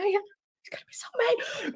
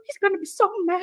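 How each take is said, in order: First: Slow hushed whisper. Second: Said in the usual way. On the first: Real, not acted. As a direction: whisper so he won't hear. Repeats it hushed, husband sleeping.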